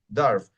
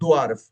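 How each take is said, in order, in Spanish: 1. El sonido W es mudo. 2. El sonido W se pronuncia. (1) "es dwarf" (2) "aquí no es dwarf"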